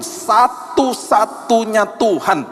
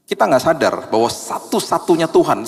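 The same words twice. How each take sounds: First: "satu-satunya Tuhan" drawn out slowly, pitched higher; underlined phrase. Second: Said in the usual way. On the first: Shown as a demonstration. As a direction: lean on "satu-satunya Tuhan", stretching every syllable. ("satu-satunya Tuhan" diucapkan lambat dan tinggi) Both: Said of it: "garis bawah itu".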